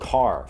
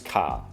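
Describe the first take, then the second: First: The final R sound is pronounced. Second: The final R sound is dropped. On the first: "the word car" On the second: "it's almost as if there's no R involved"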